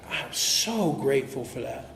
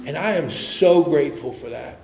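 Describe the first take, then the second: First: Softer and slower, heartfelt; soft slow sincere repeat. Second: Said in the usual way. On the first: Shown as a demonstration. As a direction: let the gratitude sink in quietly.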